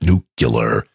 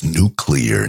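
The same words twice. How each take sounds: First: Nuclear slowly as NOO-kyuh-ler; wrong pronunciation. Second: Nuclear slowly as NOO-klee-er; correct pronunciation. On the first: Somebody correcting Georgie, nuclear mocked as slow "nucular". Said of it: "it's, uh, it's nuclear". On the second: Somebody correcting Georgie, nuclear slowly as "new-clee-er". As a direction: spell out the sounds of nuclear, "new-clear". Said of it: "not nuclear". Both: Shown as a demonstration.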